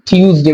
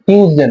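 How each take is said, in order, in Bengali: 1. প্রথম t ধ্বনিটি aspirated. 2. প্রথম t ধ্বনিটি আনঅ্যাসপিরেটেড। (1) "এখন হচ্ছে আমরা ঠ উচ্চারণ করবো" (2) "টিটাকে ট উচ্চারণ করতাম এর আগে"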